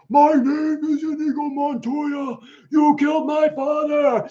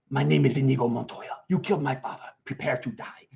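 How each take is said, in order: First: It is said with huge, larger-than-life energy. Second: It is said with fairly low energy.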